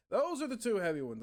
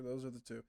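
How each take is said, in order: First: Louder and higher, stressing "Those"; emphatic restatement. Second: Said in the usual way. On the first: Shown as a demonstration. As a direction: punch it out the second time.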